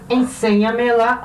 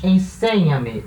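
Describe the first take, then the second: First: "Enseña-me lá" devagar, SE tônico; mantém o SE de "Enseña-me lá" acentuado, pausado; stress kept on SE. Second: Enseña-me, sílaba SE marcada e lenta; stress on SE. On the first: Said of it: "a sílaba tônica continua sendo C". (acento tônico em SE, devagar) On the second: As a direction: bate a sílaba SE de "enseña-me" devagar. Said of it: "ele tende a manter a sílaba tônica no mesmo lugar". (tonicidade em SE, devagar) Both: Shown as a demonstration.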